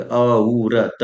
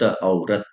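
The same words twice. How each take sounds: First: औरत stretched very slow, each sound pulled long; drawn-out औरत. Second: Said in the usual way. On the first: Shown as a demonstration. Teacher sounding out a word so students can spell it, very slowly. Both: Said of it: "औरत के कैसे लिखबे?".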